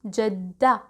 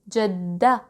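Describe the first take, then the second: No difference in how they are said.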